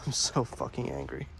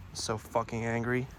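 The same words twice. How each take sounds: First: Much lower, laughing mock growl; playful low growl of fake fury; mock deep angry voice. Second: Said in the usual way. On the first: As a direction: ham up the anger in a low, gruff put-on voice. Repeated in a mock voice.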